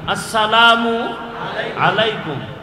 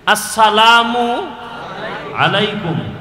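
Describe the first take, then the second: The two takes are said the same way.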